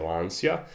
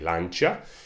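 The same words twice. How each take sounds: First: The name is pronounced the British way. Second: The name is pronounced the Italian way. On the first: "The Brits say" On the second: "I think Italians say"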